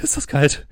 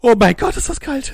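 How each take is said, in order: First: Said in the usual way. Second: High, loud shivering cry of cold; in ice cold water. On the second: Acted. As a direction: yelp at the freezing water. Character surfaces in icy lake.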